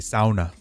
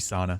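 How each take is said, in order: First: The word has a Scandinavian-style pronunciation. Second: The word has the usual English pronunciation.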